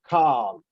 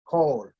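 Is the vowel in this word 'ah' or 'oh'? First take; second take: ah; oh. First: The vowel is an open 'ah' sound. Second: The vowel is a rounded 'oh' sound. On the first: The speaker calls it wrong. "most people would see this and pronounce this with the ah" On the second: The speaker calls it right. "making it sound oh"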